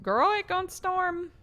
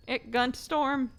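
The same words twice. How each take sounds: First: High, slow sassy warning; sassy girl voice. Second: Slow sassy repeat, less high; milder sass. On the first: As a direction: warn your girlfriend with high, slow sass. Sassy warning about storm. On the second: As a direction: settle back but keep it slow and sassy. Repeats warning. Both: Pretend.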